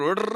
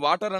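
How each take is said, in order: First: It has a foreign-style pronunciation with a soft d. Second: It has a plain Indian pronunciation with a clear t. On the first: The speaker is putting on airs after English schooling. The speaker calls it wrong. "ఇప్పుడు ఓడర్ అంటున్నాడంట" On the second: This is the ordinary local way of speaking. The speaker calls it right. "అప్పటిదాకా తెలుగు మీడియంలో ఉన్నప్పుడు వాటర్ అన్నాడంట"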